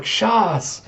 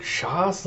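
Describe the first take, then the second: First: High, falling exclamation; called-out foreign word. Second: "Shas" softer, high, with a questioning rise; baffled echo. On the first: Player on the sand calls a word at the learner, high exclamation. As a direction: call it out as an instruction. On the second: Learner baffled by a foreign word, "Shas" rising as a question. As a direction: repeat "Shas" as a puzzled question. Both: Acted.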